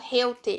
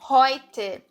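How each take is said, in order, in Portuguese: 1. A primeira vogal soa como 'eu'. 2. A primeira vogal soa como 'oi'. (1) "Eu não falo heute" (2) "o som daqui é heute, é oi"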